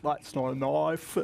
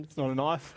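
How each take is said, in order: First: Slow, mouth-wide mock Aussie accent as a foreigner does it; foreigner's Aussie accent. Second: His own quick, easy Aussie accent on the line, half laughing; real Aussie accent. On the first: Australian driver mocking foreigners' overdone Aussie accent, slow and wide. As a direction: stretch the Aussie vowels open like an outsider trying too hard. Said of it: "when foreigners try to do an Aussie accent, I notice they really, like, open their mouth a lot".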